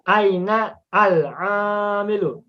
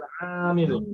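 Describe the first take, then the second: First: The article is cut off from the preceding word. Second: The article is linked smoothly to the preceding word.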